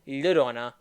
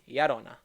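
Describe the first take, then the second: First: The double L is said as an 'ly' sound. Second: The double L is said as a 'y' sound. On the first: The speaker calls it wrong. "it's not Llorona" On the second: The speaker calls it right. "it's Yarona"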